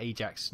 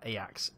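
First: Ajax said AY-jacks, with a hard J; Royal Navy pronunciation. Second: Ajax said EYE-ax, J as a Y; Dutch pronunciation. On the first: Gamer explains the Royal Navy name, Ajax said AY-jacks. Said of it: "the Royal Navy pronounced that Ajax". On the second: Gamer contrasts the football club, Ajax said EYE-ax. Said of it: "not Ajax". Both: Shown as a demonstration.

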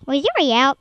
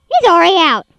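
First: Said in the usual way. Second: Louder panicked exclamation; alarmed loud repeat. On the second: Real, not acted. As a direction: shout it in alarm.

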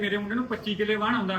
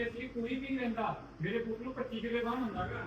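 First: A hint of the proud mother, slightly higher and softer; quoting the boy's mother. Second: Much softer, higher mocking imitation; hushed mimic of the mother. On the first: Retelling what the boy's mother said, lightly voiced. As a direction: boast about ਵਾਹਣ in her voice, lightly. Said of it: "ਕਹਿੰਦੇ". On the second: Repeating the boy's mother's boast, hushed and mocking. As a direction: hush down and mock her boast about ਵਾਹਣ. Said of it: "ਕਹਿੰਦੀ".

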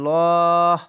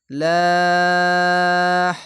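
First: লহ said full and heavy from the throat, slow and loud; heavy thick lah. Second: লাহ drawn out long and light, loud and held; light thin lah. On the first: Teacher contrasting the heavy Allah sound for students, full and thick. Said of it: "মোটা করে হতো". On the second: Teacher demonstrating the thin Allah sound to students, long and light. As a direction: stretch লাহ thin and even. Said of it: "তাহলে পাতলা করে হবে". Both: Shown as a demonstration.

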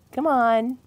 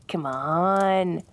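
First: Coaxing. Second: Pleading. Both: Acted. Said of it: "Come on, spill it".

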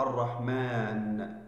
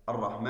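First: "الرحمن" drawn out slowly, each syllable held; slow demo word. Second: Said in the usual way. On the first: Shown as a demonstration. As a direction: stretch "الرحمن" slowly so the class hears it. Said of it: "تحذف الألف من كلمة". (نطق "الرحمن" ببطء شديد ومقطعًا مقطعًا) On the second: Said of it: "هذه الألف".

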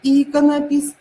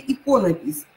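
First: Иконопись stressed on the opening И; Иконопись with strong И, the rest reduced. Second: Иконопись stressed on «ко»; иконопись with a strong first О. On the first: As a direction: hit the first syllable of Иконопись. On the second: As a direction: hit the second syllable of иконопись. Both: Shown as a demonstration. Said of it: "И или О".

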